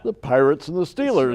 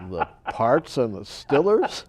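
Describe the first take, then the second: First: It is said in a standard accent. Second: It is said in a Pittsburgh accent.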